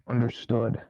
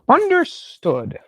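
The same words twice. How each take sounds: First: It is said in the speaker's natural voice. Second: It is said in a put-on character voice.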